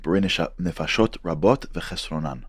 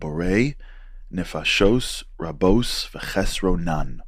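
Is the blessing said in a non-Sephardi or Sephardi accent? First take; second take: Sephardi; non-Sephardi. First: It is said in a Sephardi accent. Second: It is said in a non-Sephardi accent.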